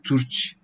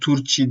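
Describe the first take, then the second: First: The final i sound is nearly silent. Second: The final i sound is clearly pronounced. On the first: The speaker calls it right. "Turç gibi demek daha doğru oluyor" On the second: The speaker calls it wrong. "i'yi biraz vurgulama gerekmiyor"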